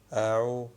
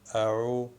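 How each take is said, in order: No difference in how they are said.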